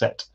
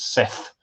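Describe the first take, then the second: First: The name ends with a 't' sound. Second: The name ends with a 'th' sound. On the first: This fits Egyptian, which had no th sound. The speaker calls it right. "should probably both be pronounced Set" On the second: This is the usual modern pronunciation. The speaker calls it wrong. "which we would pronounce as Seth"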